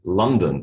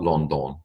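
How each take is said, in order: First: It is said in its usual way. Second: It is said the way it is spelled. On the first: The speaker calls it right. "Capital city of the country I was born in is London" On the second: The speaker calls it wrong. "It is not London. Okay, no matter what it looks like"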